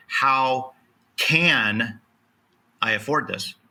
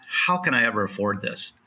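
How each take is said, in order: First: How, can, I afford this with can stressed and paused; slow it down and press the word can; a pause after How, then can said firmly. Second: How can I ever afford this? with the weight on How; How can I ever afford this, How stressed in defeat. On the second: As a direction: lean on the word How as if giving up. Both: Shown as a demonstration. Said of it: "the same words, different emphasis".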